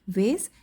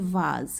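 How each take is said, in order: First: It is said with an American accent, 'vayz'. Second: It is said with a British accent, 'vahz'.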